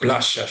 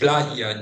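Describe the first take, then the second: First: The middle consonant is a hissing sh-like sound. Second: The middle consonant is a soft y-like fricative. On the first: This is the typical Buenos Aires pronunciation. "the typical Buenos Aires pronunciations" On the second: This is the western regional pronunciation. "a more common variant of the phoneme, which is the ye, like uh, non-sibilant fricative"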